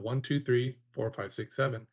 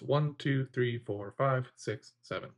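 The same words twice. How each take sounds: First: The numbers run together without pauses between them. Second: A pause separates each number from the next. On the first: The numbers are held as a couple of large chunks. "before I was only chunking two" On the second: Each number is held as its own piece of information. "The space in between each number"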